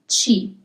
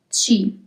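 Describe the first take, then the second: The two takes are said the same way.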